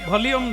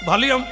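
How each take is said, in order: The two takes are said the same way.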